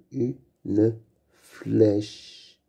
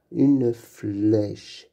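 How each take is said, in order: First: Une flèche split slowly into u-ne-flèche; syllable by syllable. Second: Said in the usual way. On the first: Shown as a demonstration. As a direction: sound out "Une flèche" with clear gaps. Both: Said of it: "On entend bien le son fle".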